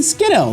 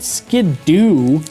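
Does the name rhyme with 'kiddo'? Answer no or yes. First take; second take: yes; no. First: The name rhymes with kiddo. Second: The name does not rhyme with kiddo. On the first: The speaker calls it right. "It should be Skiddo, like kiddo" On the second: The speaker calls it wrong. "I just can't call that thing Skidoo"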